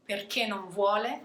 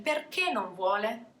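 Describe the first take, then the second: First: "perché non vuole" said as an explanation, no peak on perché; flat intonation. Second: "Perché non vuole" as a question, pitch peaking on Perché; question intonation. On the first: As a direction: keep "perché non vuole" level, as a because-clause. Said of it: "flat intonation". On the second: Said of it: "if I'm changing the intonation". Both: Shown as a demonstration.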